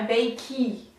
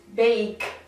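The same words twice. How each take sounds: First: An extra vowel sounds after the final consonant. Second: The word ends on the consonant, no extra vowel. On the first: The speaker calls it wrong. "não é bake" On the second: The speaker calls it right. "Nós falamos bake. ... a segunda vogal, ela fica silenciosa"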